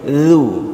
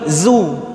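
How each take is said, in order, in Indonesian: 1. Bunyi pertama adalah 'th' bersuara. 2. Bunyi pertama adalah 'z' biasa. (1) "Monyong dan lidah kita harus melewati gigi seri" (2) "Kalau lidah kita tidak melewati gigi seri, yang keluar huruf satu lagi"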